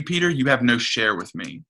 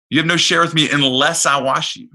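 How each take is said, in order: First: Said in the usual way. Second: Much higher and louder, pressing the point home; Jesus' words to Peter, preached with full force; preaching emphasis. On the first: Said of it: "repeated line, then emphasized". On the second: Acted. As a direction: proclaim it to the congregation. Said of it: "repeated line, preached loudly".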